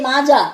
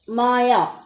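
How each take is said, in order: First: The middle consonant is a 'j' sound. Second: The middle consonant is a 'y' sound. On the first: This is how it is said locally. The speaker calls it wrong. "in our language we say Maja" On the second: This is the original German pronunciation. The speaker calls it right. "it's a German name and it is called as Maya"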